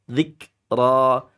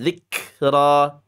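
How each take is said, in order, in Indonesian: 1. Huruf k dilepaskan dengan hembusan napas yang hanya sedikit. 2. Huruf k dilepaskan dengan hembusan napas yang berlebihan. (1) "Sedikit saja" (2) "Jangan berlebihan. ... Nggak boleh ini. Ini penambahan huruf nanti jadinya"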